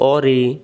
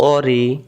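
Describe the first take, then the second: First: It starts with a deep back-of-throat q sound. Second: It starts with a deep back-of-throat q sound.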